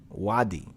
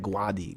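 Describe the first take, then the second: First: The word begins with a plain w sound. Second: The word begins with a gw sound. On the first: This is the original Arabic form. "it's Wadi" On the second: This is how a Spanish speaker says it. "with like a Spanish tongue, it's like Guadi"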